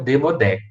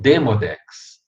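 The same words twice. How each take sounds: First: The stress falls on the last syllable. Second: The stress falls on the first syllable. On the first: The speaker calls it wrong. "mas nunca Demodex" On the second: The speaker calls it right. "ou está no D E"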